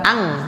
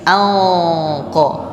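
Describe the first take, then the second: First: The nasal sound is light and thin. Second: The nasal sound is heavy and thick. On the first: The speaker calls it wrong. "bukan ang" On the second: The speaker calls it right. "Kalau hurufnya tebal, berarti ikhfanya juga tebal"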